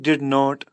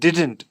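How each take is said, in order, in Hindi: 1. यह दो अलग शब्दों के रूप में बोला जाता है। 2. यह एक संकुचित शब्द के रूप में बोला जाता है। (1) "अलग-अलग आप इस तरह पढ़ोगे तो" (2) "प्रोनाउंस इस तरह करोगे डिडंट"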